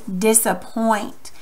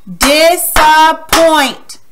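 First: Said in the usual way. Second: "Disappoint" very slow, higher and loud, in three beats; slow, by syllables. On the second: Shown as a demonstration. Teacher clapping syllables with pupils, "Disappoint" slowly chopped apart. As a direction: stretch and punch each syllable of "Disappoint". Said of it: "we're gonna say it slowly".

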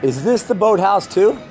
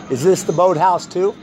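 No difference in how they are said.

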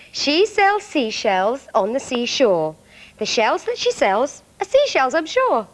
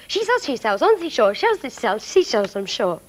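First: 1 slow tongue twister. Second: 1 fast tongue twister. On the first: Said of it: "See if you can say it with me". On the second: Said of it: "It's a very difficult one". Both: Shown as a demonstration.

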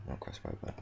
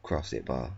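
First: Breathy whisper, much softer; whispered self-correction, "cross right bar" half-swallowed. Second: Said in the usual way. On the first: Real, not acted. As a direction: hiss the wrong words under your breath.

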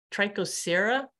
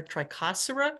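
First: "Trichosera" as try-ko-SERR-uh; Trichosera, stressed SER. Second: "Trichosera" as try-KOSS-er-uh; Trichosera, stressed CHO. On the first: Presenter guessing at an unheard genus name, "Trichosera" stressed on SER. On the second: Presenter trying a second reading of the genus, "Trichosera" stressed on KOSS. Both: Shown as a demonstration. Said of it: "Haven't heard it pronounced".

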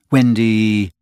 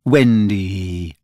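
First: Said in the usual way. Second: Put-on a boy wooing her to look up; irresistible coaxing voice. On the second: A narrator's reading. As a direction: draw her out tenderly. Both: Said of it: "in a voice that no woman has ever yet been able to resist".

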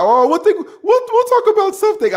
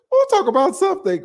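First: Imitating a friend's accent, much higher pitched; a quick put-on accent, voice jumping way up; Ike's accent. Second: Put-on second try at the friend's accent, much higher; "We'll" lifted high in a put-on accent; Ike's accent again. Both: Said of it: "I can't do a, his accent".

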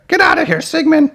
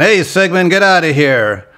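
First: Very high cartoon monster mama; Big Mama impression. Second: Lightly voiced cartoon monster brother; a hint of a character voice, shooing someone off; Blurp. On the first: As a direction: shoo someone off in a high put-on squawk. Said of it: "Big Mama is here". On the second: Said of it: "Blurp had more of the".

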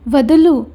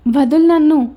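First: A sharp, louder cry of let go; struggling to break free. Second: Higher, louder plea to be let go; struggling to break free. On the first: Girl twisting in his grip, louder struggling cry. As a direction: strain against his grip and call it out. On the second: Girl pulling free of his grip, higher struggling plea. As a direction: push the words out while pulling away. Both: A narrator's reading. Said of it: "అని గింజుకుంటూ ఉంది రిషి".

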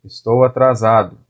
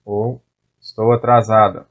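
First: "atrasado" ending in a clear -o sound; masculine ending. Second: "atrasada" ending in a clear -a sound; feminine ending. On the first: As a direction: say "atrasado" with the final o. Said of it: "For man". ("atrasado" com o final bem marcado) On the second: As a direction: say "atrasada" with the final a. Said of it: "for woman". ("atrasada" com o final bem marcado) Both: Shown as a demonstration.

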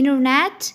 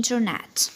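First: "internet" with silent first T; American INTERNET. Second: "internet" with first T sounded; British INTERNET. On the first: Teacher offering American option, silent-T pronunciation. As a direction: say "internet" as "innernet". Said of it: "يا إما أمريكاني". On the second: Teacher offering British option, full-T pronunciation. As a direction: clear "in-ter-net", both Ts. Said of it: "يا إما بريطاني". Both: Shown as a demonstration.

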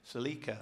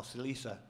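First: Celica with a K sound in the middle; hard C pronunciation. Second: Celica with an S sound in the middle; soft C pronunciation. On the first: Quizmaster offering one reading of a car name, Celica with a hard C. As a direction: say Celica as "se-LEE-ka". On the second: Quizmaster offering another reading of a car name, Celica with a soft C. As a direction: say Celica as "se-LEE-sa". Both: Shown as a demonstration. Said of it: "Is it Celica or Celica?".

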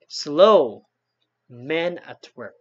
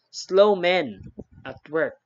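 First: Slow punched loud, then a pause before men at work; correct accent. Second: Slow men run together, pause before at work; false accent. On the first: Teacher showing students the correct phrasing of the sign. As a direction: hit slow as a command, break, then men at work slowly. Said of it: "That is the correct accent". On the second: Teacher showing students the misleading phrasing of the sign. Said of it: "kani-ani atong accent". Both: Shown as a demonstration.

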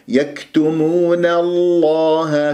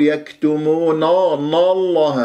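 First: يكتمون الله slow, thin na before heavy lam; light nun. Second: يكتمون الله with nun darkened to naw; wrongly heavy nun. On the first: Teacher models for students, light nun in يكتمون. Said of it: "شفت النون مرققة". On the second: Teacher shows students the error, heavy nun in يكتمون. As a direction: thicken نا before الله. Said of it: "خطأ، لا تفخم النون". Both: Shown as a demonstration.

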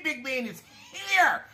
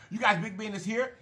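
First: Higher, slower, drawn-out hype call; sing-song intro of the guest; excited announcement. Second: Said in the usual way. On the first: Real, not acted. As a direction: stretch it out like an announcer. Hyping up a special guest.

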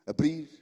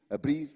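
Both takes have the same delivery.

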